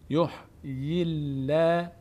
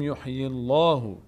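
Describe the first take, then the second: First: The L in Allah sounds light and thin. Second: The L in Allah sounds heavy and full. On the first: The speaker calls it right. "اینجا دیگه لفظ جلاله پر خونده نمیشه" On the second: The speaker calls it wrong. "نمیگیم یحیی الله"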